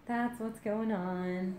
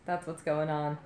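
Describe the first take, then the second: First: Higher, slow, soft singsong; playful singsong. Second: Said in the usual way. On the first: Pretend. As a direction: stretch it out lightly and quietly. Playful repeat of own line.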